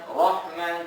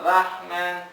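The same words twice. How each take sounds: First: The r is pronounced thick and heavy. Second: The r is pronounced thin and light. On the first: The speaker calls it right. "Ro ro bacanya tebal" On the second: The speaker calls it wrong. "jangan Rahman ra ra tipis"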